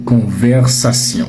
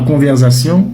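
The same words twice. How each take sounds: First: The middle consonant is an s sound. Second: The middle consonant is a z sound. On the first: The speaker calls it right. "c'est conversation" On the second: The speaker calls it wrong. "Ce n'est pas conversation"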